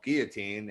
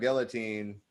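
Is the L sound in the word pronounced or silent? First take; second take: silent; pronounced. First: The L sound is left silent. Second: The L sound is clearly pronounced.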